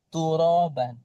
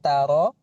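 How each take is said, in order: First: The first vowel is a rounded 'u' sound. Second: The first vowel is an open 'a' sound. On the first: The speaker calls it right. "Doma hati-hati" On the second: The speaker calls it wrong. "Bukan taro"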